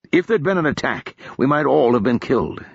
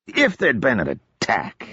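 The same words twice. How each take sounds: First: Said in the usual way. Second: Slow mock-echo of Marcus's words. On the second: Odric mimicking Marcus's warning back at him, slow and mocking. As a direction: parrot it back with light mockery. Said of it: "Odric said mockingly".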